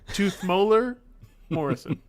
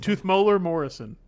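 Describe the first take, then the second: First: It is said slowly. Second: It is said at normal speed.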